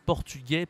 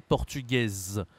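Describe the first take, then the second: First: PORTUGAIS ending on an open è, final s silent; masculine pronunciation. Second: PORTUGAISE slow, with a sounded final z; feminine pronunciation. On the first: Teacher contrasting genders for a learner, masculine pronunciation. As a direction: say "portugais" with rising list tune, no z. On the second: Teacher contrasting genders for a learner, feminine pronunciation. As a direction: draw out the z closing "portugaise", falling tune. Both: Shown as a demonstration. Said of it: "la prononciation est différente".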